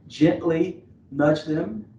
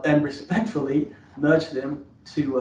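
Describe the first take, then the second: First: Gently drawn out slow and leaned on hard; stress on gently. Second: Said in the usual way. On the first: Shown as a demonstration. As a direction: land firmly on the word Gently, unhurried. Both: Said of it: "emphasis on the word gently".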